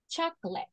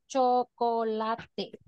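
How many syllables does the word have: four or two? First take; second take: two; four. First: The word is said with two syllables. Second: The word is said with four syllables. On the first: "it's pronounced chocolate. So that means that chocolate in English has two syllables" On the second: "four syllables in Spanish"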